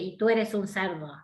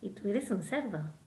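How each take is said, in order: First: It is said in a contemptuous, insulting tone. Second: It is said in a warm, affectionate tone. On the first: It is taken as an offense. "ahí sí lo tomo como una ofensa" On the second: It is not meant as an offense. "Si yo lo digo así, no es una ofensa"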